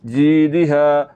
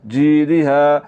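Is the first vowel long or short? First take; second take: long; long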